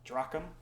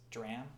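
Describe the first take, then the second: First: A hard k-like sound comes before the m. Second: No k-like sound comes before the m. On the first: The speaker calls it wrong. "the pronunciation is not drachm, as I thought" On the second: The speaker calls it right. "It's dram. Uh, the C H is silent"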